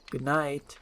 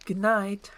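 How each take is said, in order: First: Said in the usual way. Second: Higher-voiced princess saying good night; lightly voiced princess, pitched up; princess's good night. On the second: Princess and ogre bid good night.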